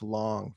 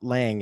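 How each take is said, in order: First: The vowel sounds like the one in 'long'. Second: The vowel sounds like the one in 'hang'. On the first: The speaker calls it right. "it's Long" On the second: The speaker calls it wrong. "not Lang"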